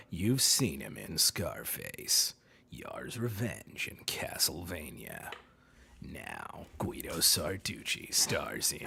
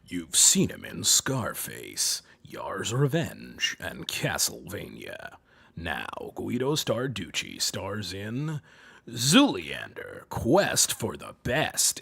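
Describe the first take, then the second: First: Very deep, hushed, slow announcer; quiet, rumbling trailer voice; low Steve Blum step-off. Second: Very low, slow, sultry trailer voice; slow, rumbling sultry voice-over; sultry deep announcer. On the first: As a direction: sink low and soft, drawing out each title. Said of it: "if you go a little low". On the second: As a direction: drop deep and draw it out seductively. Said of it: "you gotta go more sultry with it". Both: Shown as a demonstration.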